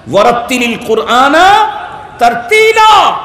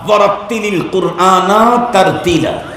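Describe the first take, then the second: First: Commanding shout. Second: Said in the usual way. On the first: Shown as a demonstration. Preacher repeats God's command to the crowd, shouting. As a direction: thunder out "তারতিলা" as a divine order. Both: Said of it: "আমার order".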